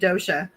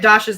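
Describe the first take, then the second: First: The first vowel sounds like 'oh'. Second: The first vowel sounds like 'ah'. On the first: The speaker calls it wrong. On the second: The speaker calls it right.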